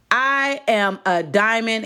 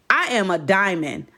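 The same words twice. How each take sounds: First: "I am a diamond" slowed, word by word; emphatic repetition. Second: Said in the usual way. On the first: Real, not acted. Repeats the declaration slowly for emphasis.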